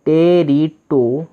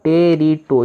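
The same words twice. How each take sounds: First: टेरिटो stretched out slowly, syllable by syllable; teacher sounding out the word; slow blended syllables. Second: Said in the usual way. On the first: Shown as a demonstration. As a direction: draw out each syllable. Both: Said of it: "तो बन गया टो".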